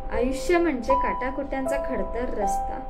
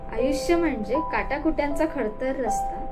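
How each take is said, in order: Both takes have the same delivery.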